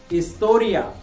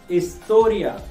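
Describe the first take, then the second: The two takes are said the same way.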